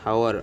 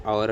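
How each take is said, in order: First: "Hour" with the H pronounced; sounded H. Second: "hour" starting on the vowel, like "our"; silent H. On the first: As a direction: say "Hour" as spelt, H and all. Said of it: "Why H is silent pronunciation". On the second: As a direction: say "hour" without any H. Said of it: "అని పిలుస్తాం". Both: Shown as a demonstration.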